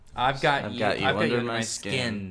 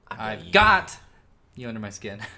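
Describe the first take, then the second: First: The strongest stress falls on "skin". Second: The strongest stress falls on "got". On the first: "Just skin" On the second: "You see, you're a got guy"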